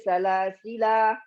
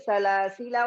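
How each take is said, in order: First: The reading stops after the word. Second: The reading runs on into the next word. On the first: "kalau berhenti" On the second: "Kalau kita lanjut"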